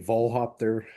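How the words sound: The name is said with a German pronunciation.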